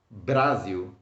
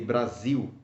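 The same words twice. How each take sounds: First: The stress is on the first syllable. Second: The stress is on the last syllable. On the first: The speaker calls it wrong. "Why don't I say Brasil?" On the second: The speaker calls it right. "you have to stress the last syllable of the word"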